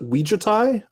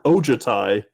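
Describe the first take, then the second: First: The name begins with a 'wee' sound. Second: The name begins with an 'oh' sound. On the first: "I've never heard somebody pronounce it Ouijatai" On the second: "I've always heard Ojatai"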